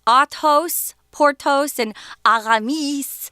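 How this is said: The names are said with a French pronunciation.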